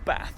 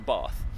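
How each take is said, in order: First: It is said in a Midlands accent. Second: It is said in an Oxford accent. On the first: A habit picked up from local speech. "saying things in the Midlands dialect" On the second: The speaker's original home way of speaking. "rather than"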